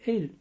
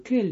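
First: The word begins with a vowel sound. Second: The word begins with a k sound. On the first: This is the divine name itself. "не Эль" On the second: The divine name is avoided so it is not said in vain. "Я говорю Кель"

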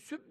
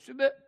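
First: The b is cut off abruptly with no echo. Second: The b is released with a short echoing bounce. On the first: The speaker calls it wrong. "süb deyince biraz şey oluyor" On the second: The speaker calls it right. "kalkale, vurduruyorsun oraya. ... doğrusu bu"

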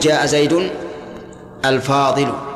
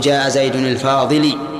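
First: The last word ends in a u vowel. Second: The last word does not end in u. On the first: The speaker calls it right. "يجب أن تقول" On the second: The speaker calls it wrong. "لا يصح أن تقول"

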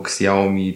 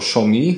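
First: The name is said with Polish-style sounds. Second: The name is said with its original Chinese-style sounds. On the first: This is how people in Poland will say it. "polskość wygra i będzie każdy, wiesz, mówił Xiaomi" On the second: This is the official pronunciation. "Formalnie wymawia się to Xiaomi"

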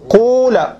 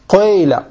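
First: The first vowel is a pure u sound. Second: The first vowel is an i tinged with u. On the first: "بالضم الخالص" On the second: "ولكن تخلطه بضم"

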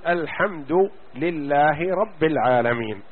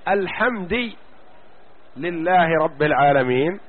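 First: The vowel endings are the standard Quranic ones. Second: A vowel ending is changed from the standard. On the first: The wording is kept as revealed. The speaker calls it right. "تقرأ الفاتحة تقول" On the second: The wording is distorted. The speaker calls it wrong. "هذا تحريف لفظي"

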